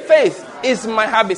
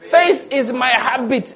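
First: Said in the usual way. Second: Slow it right down, landing on "habit"; "Faith is my habit" drawn out slowly, with weight on "habit"; stress on habit. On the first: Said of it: "Say it again". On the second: Shown as a demonstration. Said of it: "That habit is the emphasis".

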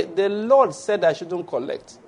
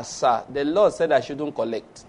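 First: Calm slow refusal. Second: Said in the usual way. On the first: Acted. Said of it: "repeated refusal". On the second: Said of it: "You say".

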